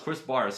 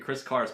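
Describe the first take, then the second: First: The surname starts with a B sound. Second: The surname starts with a K sound. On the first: The speaker calls it right. "but no, it's [name]" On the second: The speaker calls it wrong. "who I constantly mispronounced as the Chris Karis band"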